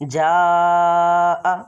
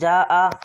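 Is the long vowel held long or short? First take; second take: long; short. First: The vowel is stretched out for longer. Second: The vowel is held only briefly. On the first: The speaker calls it right. "अब हमने इसको ज़्यादा खींचना है" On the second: The speaker calls it wrong. "जा आ नहीं पढ़ना"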